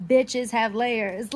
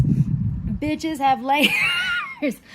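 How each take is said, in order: First: Each word set down slowly and firmly, with stress on "Bitches"; slow emphatic repeat. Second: Laughing loudly through a slow, drawn-out line; laughing punchline. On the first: To her viewers, a slow and firm repeat of the punchline. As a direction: drive the "Bitches have layers" point home word by word. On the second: To her viewers, a loud line broken by laughter. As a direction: crack up mid-line while insisting on it. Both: Real, not acted.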